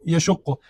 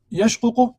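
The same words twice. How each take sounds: First: یشق as ya-shuq-qu, with doubled qaf; merged form. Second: یشقق as yash-qu-qu, the two qafs apart; unmerged original form. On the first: Teacher answers how it turns out, یشق merged as ya-shuqqu. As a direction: say یشق with u after sh and a held q. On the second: Teacher repeats the original for students, یشقق unmerged as yash-ququ. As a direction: say یشقق slightly raised, closing sh before qu-qu. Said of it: "اصلی از این بود". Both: Shown as a demonstration.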